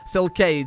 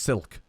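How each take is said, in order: First: The name is said the Latin way. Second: The name is said like the word silk. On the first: The speaker calls it right. "pronounced the Latin way" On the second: The speaker calls it wrong. "rather than just silk. It's a bit boring"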